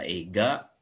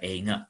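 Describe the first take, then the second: First: The middle consonant is a plain hard g. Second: The middle consonant is a nasal ng. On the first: "itu selain dibaca eiga" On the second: "dibaca juga einga boleh ya"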